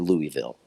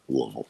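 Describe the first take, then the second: First: The first part sounds like the name Louis. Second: The first part does not sound like Louis. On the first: This follows the name of the king the city is named after. "I don't say Louisville" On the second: This is how the locals say it. "I say Louisville"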